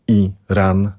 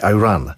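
First: The title is read with Polish pronunciation. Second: The title is read with English pronunciation.

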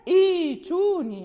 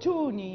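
First: The word opens with a glottal stop and i. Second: The word is joined on, starting with t. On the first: The reading starts fresh at this word. "أما حال الابتداء" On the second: The word continues from the word before. "لا ننطق بالهمزة الوصل، يعني تذهب في الوصل"

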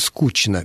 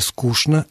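First: The consonant before 'n' sounds like 'ch'. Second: The consonant before 'n' sounds like 'sh'. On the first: The speaker calls it wrong. "а не «скучно»" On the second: The speaker calls it right. "предпочтительнее «скучно»"

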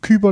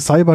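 First: The word begins with a K sound. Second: The word begins with an S sound. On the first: The word feels cute. The speaker calls it right. "sollte eigentlich Kyber ausgesprochen werden" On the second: The word feels aggressive. The speaker calls it wrong. "das klingt so, das ist so aggressiv"

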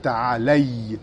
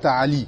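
First: The word ends with an 'ay' sound. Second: The word ends with an 'ee' sound. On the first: The speaker calls it right. "On dit ta'alay" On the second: The speaker calls it wrong. "on ne dit pas ta'ali"

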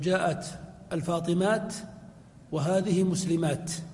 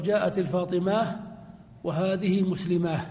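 First: The final word ends in a t sound. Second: The final word ends in an h sound. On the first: This is the usage of most Arabs. "فلغة الجمهور الوقف عليها بالتاء" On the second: This is the usage of some Arabs. "لغة لبعض العرب وهو الوقف عليها بالهاء"

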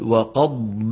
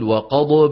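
First: The daad is held smoothly without any bounce. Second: The daad is bounced with an echoing release. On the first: The speaker calls it right. "الصواب أن نقول وقضب" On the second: The speaker calls it wrong. "الغلط أن نقول وقضب، هذا غلط"

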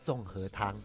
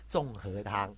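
First: It is said plainly at normal force. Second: It is said heavily with exaggerated articulation.

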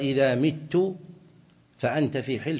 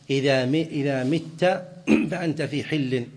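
First: The verb ends with a short 'u' vowel. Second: The verb ends with a short 'a' vowel. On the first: It means if I die, a bequest. "لو قال له إن مت بضم التاء فهي وصية" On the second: It means if you die, a conditional debt release. "وبفتحها إبراء معلق"

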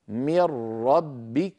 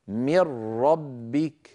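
First: The n vanishes into a doubled r. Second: The n vanishes into a doubled r.

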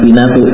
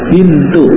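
First: An extra vowel splits the word into three syllables. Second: The n and t join, making two syllables. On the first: The speaker calls it wrong. "bukan binatu" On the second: The speaker calls it right.

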